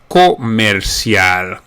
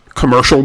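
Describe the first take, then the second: First: It is said with Spanish sounds. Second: It is said with English sounds.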